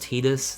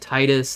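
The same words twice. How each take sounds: First: The first syllable does not sound like 'tide'. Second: The first syllable sounds like the word 'tide'. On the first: This is the official pronunciation. "technically it's pronounced Titus. That's how they pronounce it" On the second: This is the speaker's preferred pronunciation. "like the tides of water"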